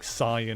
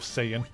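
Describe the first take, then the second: First: The name is pronounced in a Japanese style. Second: The name is pronounced in an English style.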